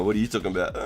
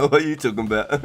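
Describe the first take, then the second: First: Said in the usual way. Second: The line again, louder, amused disbelief; louder repeat. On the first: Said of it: "I was like". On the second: Real, not acted. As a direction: repeat it louder, half laughing. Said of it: "repeats own line louder".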